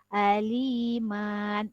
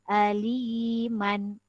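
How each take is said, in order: First: The final vowel is drawn out long. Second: The final vowel is kept short. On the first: The speaker calls it wrong. "tidak boleh begitu ya" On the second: The speaker calls it right. "Dia dibaca pendek sahaja"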